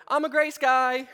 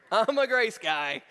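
First: Louder, higher mock plea of a guilty man; mock pleading. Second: Drawn-out, slower pleading repeat; slow mock plea. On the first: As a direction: blurt it out like you just got caught. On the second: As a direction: stretch the words, begging for leniency. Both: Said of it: "I go".

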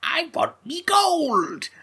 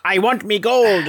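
First: Slow, high Irish leprechaun voice; drawn-out Irish leprechaun accent. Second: Louder Irish leprechaun voice, a bit slow; Irish leprechaun accent done lightly. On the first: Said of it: "That's better than what Warwick Davis does". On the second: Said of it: "is what Warwick said". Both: Retold or imitated.

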